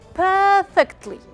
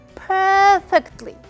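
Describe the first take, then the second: First: The pitch rises and then falls. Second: The pitch rises and then falls.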